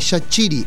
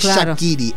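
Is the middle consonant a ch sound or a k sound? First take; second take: ch sound; k sound. First: The middle consonant is a ch sound. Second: The middle consonant is a k sound. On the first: The speaker calls it right. "La Q en albanés suena a ch" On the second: The speaker calls it wrong. "no es Shakiri"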